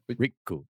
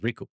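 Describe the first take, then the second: First: There is a short held pause before the k. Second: The k follows straight on without a pause. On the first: This is the name spelled with two Ks. "we do the little pause" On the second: This is the name spelled with one K. "the other one's"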